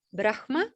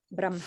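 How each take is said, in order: First: "Brahma" said BRAKH-ma, h before m; Brahma as written. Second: "Brahma" said BRAM-ha, m before h; Brahma with m first. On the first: Teacher describing other teachings, "Brahma" as BRAKH-ma. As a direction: say "Brahma" with an audible h, then ma. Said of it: "in a context where they say". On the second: Teacher showing her lineage's chanting, "Brahma" as BRAM-ha. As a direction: say "Brahma" with the h after the m. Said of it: "they will say". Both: Shown as a demonstration.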